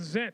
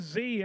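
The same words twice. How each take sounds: First: The letter is said the New Zealand way, 'zed'. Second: The letter is said the American way, 'zee'.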